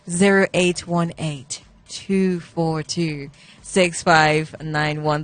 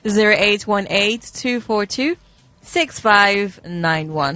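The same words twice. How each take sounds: First: The number is read slowly. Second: The number is read at normal speed.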